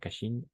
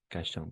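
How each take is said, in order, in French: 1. Le nom finit par un son 'een'. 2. Le nom finit par une voyelle nasale 'an'. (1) "pas Cachine" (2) "Cachan, pas Cachine, Cachan"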